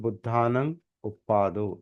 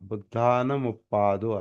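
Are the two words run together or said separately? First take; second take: separately; run together. First: The two words are said as separate words. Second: The two words are joined into one with m. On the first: These are the underlying separate words. "खरं म्हणजे तो बुद्धानं उप्पादो असा आहे" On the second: This is the combined form of the two words. "त्याचा एकत्रीकरण बुद्धानमुप्पादो असा झालेला आहे"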